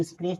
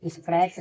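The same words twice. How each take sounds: First: "स्क्रेच" as skres, no t stop; silent-t reading of "स्क्रेच". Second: "स्क्रैच" with a t before the final ch; T sounded. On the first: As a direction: say "स्क्रेच" with long e and no t. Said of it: "यहाँ टी silent रहेगा". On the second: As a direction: say "स्क्रैच" with a short a and hard stop. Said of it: "से नहीं". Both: Shown as a demonstration.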